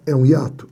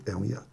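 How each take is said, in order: First: "É um hiato?" asked with stress on "hiato"; teacher quizzing students; asking question. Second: "É um hiato." almost swallowed, much lower and softer; teacher answering under breath. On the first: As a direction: ask "É um hiato?" to the class. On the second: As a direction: mutter the answer "É um hiato." to yourself. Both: Shown as a demonstration.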